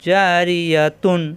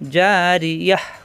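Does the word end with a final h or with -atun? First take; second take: -atun; final h. First: The word ends with a t and -un ending. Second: The word ends in a stopped h sound. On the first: The reciter continues without pausing. "যদি আমরা এখানে অক্ষ না করি পড়ে যাই এরকম যদি হয় তাহলে হবে জারিয়াতুন" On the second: The reciter pauses at this word. "এখানে মনে মনে সাকিন ধরে"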